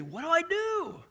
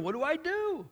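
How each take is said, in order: First: High, drawn-out plea; pleading retold question. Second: High, worried what-do-I-do; anxious retold question. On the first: Young friend pleading with pastor for advice, slow and high. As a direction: stretch the question out like a lost young man. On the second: Friend asking pastor what to do, high and worried.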